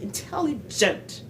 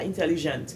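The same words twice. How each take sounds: First: Intelligent slowly, high TEL and hard "dj" in gent; correct American sound. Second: Intelligent French-style, even syllables, no punched TEL; wrong pronunciation. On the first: Teaching the dj sound, intelligent slow and stressed on TEL. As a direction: draw out "in-TEL-li-DJENT". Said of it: "C'est le son je". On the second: Showing the mistake, French-style intelligent. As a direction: say "in-te-li-jent" evenly. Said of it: "Non, c'est pas intelligent". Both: Shown as a demonstration.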